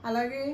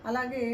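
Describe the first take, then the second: Both takes have the same delivery.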